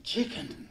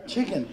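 First: Mock Kit, breathy high "Chicken?" rising in disbelief; incredulous question. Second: "Chicken." said flat and final, falling; settled statement. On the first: Kit repeating the word back in puzzled disbelief. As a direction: ask "Chicken?" as if the word were strange. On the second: Retold or imitated. Kit pronouncing the word back as a grave verdict. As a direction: state "Chicken." like a solemn conclusion. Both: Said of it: "and he said".

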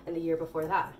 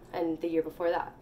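No difference in how they are said.

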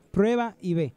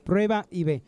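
Both takes have the same delivery.

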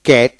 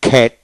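First: ক্যাট with a hard k and no puff; unaspirated k. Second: খ্যাট with a puff of air after the k; phonetic aspirated k. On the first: Teacher contrasting two pronunciations, unaspirated k. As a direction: keep the k of ক্যাট free of breath. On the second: Teacher contrasting two pronunciations, aspirated k. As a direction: release the k of খ্যাট with breath. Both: Shown as a demonstration. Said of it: "phonetic ঠু উচ্চারিত হয়".

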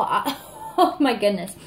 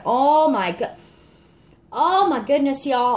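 First: Laughing. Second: Higher and louder, bursting with delight; excited exclamation. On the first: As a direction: laugh it off, still giddy. Laughing at own reaction. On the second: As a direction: blurt it out, can't contain yourself. Overwhelmed by the scent. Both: Real, not acted.

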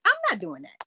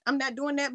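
First: Louder and higher, flatly refusing; emphatic refusal. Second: Said in the usual way. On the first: Real, not acted. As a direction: shut the request down hard. Repeated refusal.

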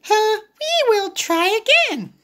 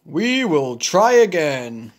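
First: High little pig voice; Piggy encouraging Gerald, high voice. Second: Gerald voice. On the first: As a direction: pitch way up, cheery little pig. Piggy's line. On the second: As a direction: lower big elephant voice. Gerald echoes Piggy. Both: Acted.

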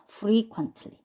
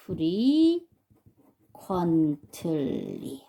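First: Said in the usual way. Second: 프리 퀀틀리 very slowly, syllables stretched, pause between parts; slow pronunciation demo. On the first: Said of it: "가 되겠네요". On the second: Shown as a demonstration. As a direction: draw out each part of 프리 퀀틀리 for learners. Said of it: "그래서 얘는 발음이".

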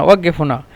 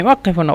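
First: "ওয়াক্কেফ" voiced as waggef; Saudi g for qaf. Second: "ওয়াক্কেফ" with a hard doubled k-like qaf; standard qaf. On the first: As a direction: say the middle of "ওয়াক্কেফ" as a double g. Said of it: "সৌদিরা বলে ওয়াক্কেফ". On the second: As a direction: say the middle of "ওয়াক্কেফ" as k, not g. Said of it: "দুইবার উচ্চারণ হবে". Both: Shown as a demonstration.

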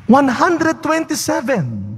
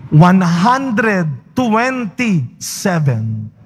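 First: "One hundred twenty-seven" said higher, a bit slower, marvelling; lighter, wondering repetition of the number; repeated figure. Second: "One hundred twenty-seven" stretched out very slowly, every word weighted; slow, emphatic reveal of the number; drawn-out answer. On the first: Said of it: "O meron ba sa inyo dito gustong magganon din?". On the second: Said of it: "ilang taon namatay si Sarah?". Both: Shown as a demonstration.

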